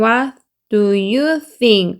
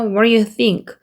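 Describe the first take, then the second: First: Each word is said separately, one by one. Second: The words run together in one linked stream. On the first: "하나씩 읽으면" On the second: "연결해서"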